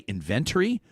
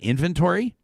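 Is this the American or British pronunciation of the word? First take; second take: British; American. First: It is said with a British pronunciation. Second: It is said with an American pronunciation. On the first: The speaker calls it right. "Did you hear him say inventory?" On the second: The speaker calls it wrong. "Doesn't that make more sense than inventory?"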